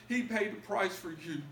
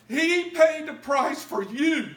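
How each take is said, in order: First: Said in the usual way. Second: He paid the price for you, preached high, loud and very slow; full-force preaching. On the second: Acted. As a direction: stretch every word of He paid the price for you and shout it. Preached peak then repeated plainly.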